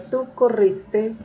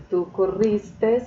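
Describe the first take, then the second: First: Said in the usual way. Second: "corriste" with an S tacked on the end; added final S. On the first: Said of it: "tienden a decir". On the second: Shown as a demonstration. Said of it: "le ponen la S".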